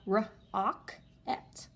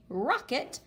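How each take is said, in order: First: Rocket stretched slowly, each syllable apart; sounded out. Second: Said in the usual way. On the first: Shown as a demonstration. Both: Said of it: "let's sound it out".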